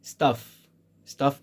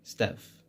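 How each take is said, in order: First: "stuff" with a long British ah, as in father; British pronunciation. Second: "stuff" with a flat American a, as in cat; American pronunciation. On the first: Teacher shows learners British "stuff", broad ah vowel. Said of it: "stuff in British English". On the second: Teacher shows learners American "stuff", short front a. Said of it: "In American English". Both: Shown as a demonstration.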